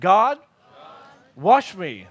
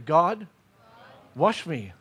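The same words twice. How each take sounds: First: It is said with passion and intensity. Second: It is said in a calm, plain way.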